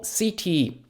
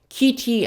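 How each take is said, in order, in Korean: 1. 이 단어는 부드러운 S 소리로 시작해요. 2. 이 단어는 강한 K 소리로 시작해요. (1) "C 뒤에 I가 왔으니까 C는 S 발음" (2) "kitty 아니고"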